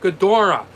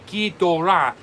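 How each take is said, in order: First: The name is said with an older English-style pronunciation. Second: The name is said with a Japanese-style pronunciation. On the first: This is how the name was said in the late fifties. "that's the way they pronounced it in the late fifties" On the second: This follows the original Japanese pronunciation. "Japanese pronunciation pronounces that way"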